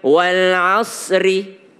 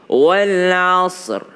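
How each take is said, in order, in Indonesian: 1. Kata ini berakhir dengan vokal 'i' yang ditambahkan. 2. Kata ini berakhir dengan konsonan 'r' tanpa vokal.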